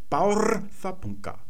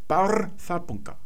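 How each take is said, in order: The two takes are said the same way.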